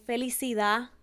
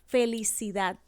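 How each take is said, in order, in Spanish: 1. El sonido final de la d se omite. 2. El sonido final de la d se pronuncia. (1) "omitimos la última letra de la palabra" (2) "en vez de decir felicidad"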